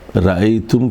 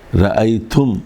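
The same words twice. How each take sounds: No difference in how they are said.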